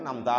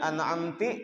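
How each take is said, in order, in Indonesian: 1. Suku kata terakhir berakhir dengan vokal 'a'. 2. Suku kata terakhir berakhir dengan vokal 'i'. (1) "asalnya an'amta" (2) "dibacanya an'amti, barisnya ke bawah"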